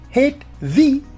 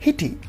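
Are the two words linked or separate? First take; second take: separate; linked. First: The two words are said separately, unassimilated. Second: The second sound is assimilated to the t. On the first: This is how it sounds said in isolation. "In isolation, we say hit V" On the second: This is how it sounds in connected speech. "But in connected speech, we say hitty"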